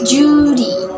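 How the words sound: It is said in an Australian accent. "In Australian accents"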